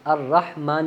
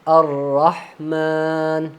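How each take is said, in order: First: The vowel after m is kept short. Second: The vowel after m is drawn out long. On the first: The speaker calls it wrong. "नहीं पढ़ना" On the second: The speaker calls it right. "थोड़ा सा लंबा करना"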